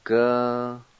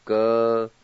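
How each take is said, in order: First: Said in the usual way. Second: "G-W-A-L-S-K-A" with an H breathed between the A and the T; H sound. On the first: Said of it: "Like this". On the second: Shown as a demonstration. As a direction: add a breathy H in "G-W-A-L-S-K-A". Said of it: "is an H sound. Like this".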